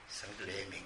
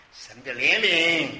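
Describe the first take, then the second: First: Very soft and low; hushed repeat. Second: Loud, slow declaration; emphatic proclamation. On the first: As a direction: let it sink to a low, reverent hush. Hushed repeat of same words. (低声轻轻地说) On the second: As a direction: proclaim it slowly at full voice. Preacher answers own question, then repeats. (响亮而缓慢地宣告) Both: Real, not acted.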